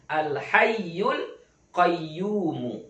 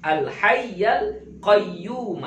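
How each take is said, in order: First: The vowel after 'hayy' is a 'u' sound. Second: The vowel after 'hayy' is an 'a' sound. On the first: "Baris depan" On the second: "baris atas"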